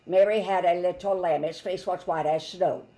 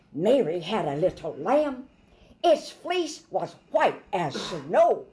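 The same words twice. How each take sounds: First: Monotone. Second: Lively, animated nursery rhyme; lively storytelling. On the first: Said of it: "He would not say it in a monotone way". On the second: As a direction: say it like it's alive. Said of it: "No, no, no. He's alive". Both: Shown as a demonstration.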